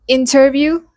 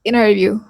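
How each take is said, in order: First: Said in the usual way. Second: "interview" as "innerview"; disappearing T. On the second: Shown as a demonstration. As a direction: say "interview" with no T after the n. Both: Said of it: "the T disappears completely in fast speech".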